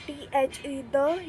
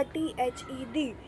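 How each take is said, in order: First: द said with a short 'uh' vowel; द as unstressed "thuh"; schwa pronunciation. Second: डी said with a long 'ee' vowel; डी rhyming with "see"; long-ee pronunciation. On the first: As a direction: spell it out, then say द as "thuh". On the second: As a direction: spell it out, then say डी as "thee". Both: Shown as a demonstration. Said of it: "दोनों भी pronunciation सही है".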